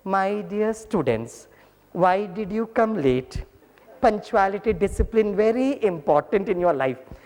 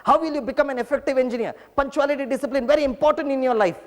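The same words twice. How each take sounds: First: Very slow, sweet, drawn-out scolding; very lovingly. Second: Raised, slow scolding of late students; mock angry lecture. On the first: Retold or imitated. Teacher lovingly greeting late students. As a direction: melt each word, hand on heart. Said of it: "अभी बहुत प्यार से बोलता हूँ". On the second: Angry teacher scolding latecomers, hammed-up. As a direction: scold them slowly, pitch up high. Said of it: "मैं इतना भड़कता था".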